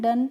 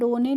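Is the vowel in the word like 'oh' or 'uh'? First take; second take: uh; oh. First: The word is said with an 'uh' vowel. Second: The word is said with an 'oh' vowel. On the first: The speaker calls it right. "डन पढ़ते हैं" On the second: The speaker calls it wrong. "इसको हम डोने नहीं पढ़ते हैं"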